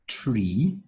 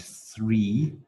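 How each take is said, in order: First: Tree with a clear t, rising; tree drawn out, lifted at the end; minimal pair demo. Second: Three with a clear th, rising; three drawn out, lifted at the end; minimal pair demo. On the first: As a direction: say tree carefully, plain t at the start. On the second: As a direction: say three carefully, th at the start. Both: Shown as a demonstration. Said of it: "is opposed with tree".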